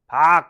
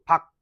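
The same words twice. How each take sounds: First: The syllable is drawn out long. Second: The syllable is cut off quickly. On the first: The speaker calls it wrong. "이렇게 긴게 길게 발음을 하는 게 아니라" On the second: The speaker calls it right. "빨리 끊어지는 발음으로"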